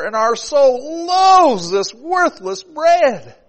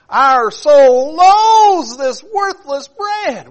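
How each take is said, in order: First: Loud high slow reading; scripture complaint. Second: High, shouted, very slow wail; crying out. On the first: Preacher reading the people's complaint, loud. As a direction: read the verse with mounting anger. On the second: Israelites rejecting the manna, high crying shout. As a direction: wail it like a furious starving crowd. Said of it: "God sent the manna". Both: Acted.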